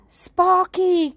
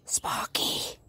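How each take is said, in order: First: High, loud scolding call; alarmed cry. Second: Soft, voiceless whisper of a name. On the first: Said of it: "cried George". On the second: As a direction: whisper it as a discreet warning. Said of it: "whispered George". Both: A narrator's reading.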